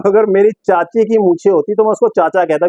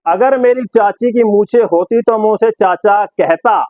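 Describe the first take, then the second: First: Said in the usual way. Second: Slow, declaimed commentator's quip; Sidhu. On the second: Retold or imitated. Presenter quoting Sidhu on an impossible chase, slow declamation. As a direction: spell out the joke slowly, word by word. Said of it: "लेकिन सिद्धू क्या बोलेगा".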